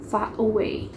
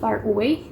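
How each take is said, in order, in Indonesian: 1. R di akhir far dihilangkan. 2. R di akhir far diucapkan. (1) "Jadi R-nya tidak perlu dibaca" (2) "biasanya kan uh, huruf R-nya dibaca"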